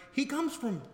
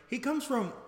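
No difference in how they are said.

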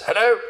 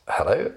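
First: Much higher, brisk hello; a commanding voice checking the line; an old general's call; general on the phone. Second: Said in the usual way. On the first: Retold or imitated.

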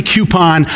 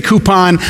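First: "coupon" pronounced CUE-pon; "coupon" with a yoo sound. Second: "coupon" pronounced COO-pon; "coupon" with a plain oo. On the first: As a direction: open "coupon" with cue, adding a y-glide. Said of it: "when I say coupon". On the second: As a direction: open "coupon" with coo, no y-glide. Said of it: "if you say coupon". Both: Shown as a demonstration.

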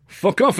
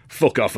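First: High-pitched, indignant snap; furious father's comeback; angry retort. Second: Said in the usual way. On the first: A narrator's reading. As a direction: hurl it back in outrage. Angry father answers back.

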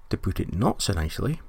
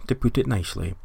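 First: "not" stressed, with a rise at the end. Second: Said in the usual way. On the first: Shown as a demonstration. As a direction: lean on the word "not".

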